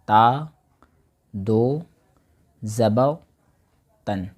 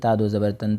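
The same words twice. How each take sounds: First: Each part is said separately with clear pauses. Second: The parts are run together without clear pauses. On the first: The speaker calls it right. "इन तीनों को अलग अलग बोल करके फिर चौथे में तन बोलना है" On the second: The speaker calls it wrong. "ये नहीं कि ... ऐसे नहीं।"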